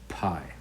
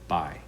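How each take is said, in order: First: The first sound has a strong puff of air. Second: The first sound has no puff of air. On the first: The speaker calls it right. "P is pie, like this" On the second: The speaker calls it wrong. "they would mispronounce it with no air"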